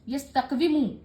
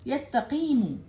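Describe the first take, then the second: First: It is said with a w sound. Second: It is said without a w sound. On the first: The speaker calls it wrong. "मुश्किल था पढ़ने में" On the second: The speaker calls it right. "यस्तकीमू आसान है"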